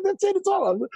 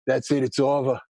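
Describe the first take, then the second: First: Much higher, hammed-up wailing doom; mock despair. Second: A touch lower, resigned, doom-laden; mock the cousin giving up on the news; gloomy cousin. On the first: Retelling the cousin's panic, high hammed-up despair. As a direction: wail it like it's all over, laughing. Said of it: "I said". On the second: Cousin on the phone giving up, low and resigned. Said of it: "he's like".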